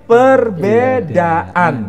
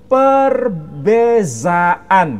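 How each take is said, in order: First: The middle consonant is a 'd' sound. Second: The middle consonant is a 'z' sound. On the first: This is the Indonesian form. "Kita menyebutnya" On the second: This is the Malaysian form. "Orang Malaysia menyebut"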